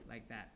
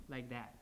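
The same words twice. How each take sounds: The two takes are said the same way.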